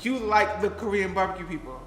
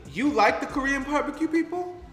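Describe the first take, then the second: First: It is stated as a statement, falling. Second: It is asked as a question, rising.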